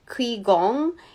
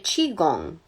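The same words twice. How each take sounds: First: The word begins with a 'kw' sound. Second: The word begins with a 'ch' sound. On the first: The speaker calls it wrong. "I know that the Q I is not pronounced Q I" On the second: The speaker calls it right. "Qigong is actually"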